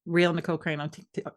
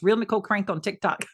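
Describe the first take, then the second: First: Stumbling over "TikTok", cut off at the end; tongue twister going wrong on "TikTok"; tongue-tied attempt. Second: "Real Nicole Crank on TikTok" said fully, breaking into laughter; completed retry with a laugh on "TikTok"; tongue-twister retry. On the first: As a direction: trip on "Real Nicole Crank on TikTok" like a tongue twister. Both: Shown as a demonstration. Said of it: "I can't even say that fast".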